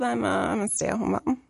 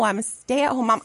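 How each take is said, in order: First: The phrase is mumbled quietly and unclearly. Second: The phrase is said clearly and confidently. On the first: The speaker feels embarrassed about the role. The speaker calls it wrong. "I had to mumble it out" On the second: The speaker is proud of the role. The speaker calls it right. "and no"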